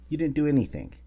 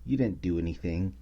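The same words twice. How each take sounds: First: Didnt punched higher and louder; stress on didnt. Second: Said in the usual way. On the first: Shown as a demonstration. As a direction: hit didnt hard, scolding. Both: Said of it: "repeated with emphasis".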